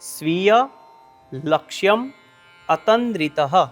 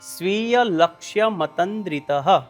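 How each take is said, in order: First: Each word is said separately with pauses between. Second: The words are run together without pauses. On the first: "આ શબ્દમાં છૂટા છૂટા ત્રણ શબ્દ છે" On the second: "આ ત્રણ શબ્દો ભેગા થઈ આવી રીતે ઉચ્ચારણ કરવાનું છે"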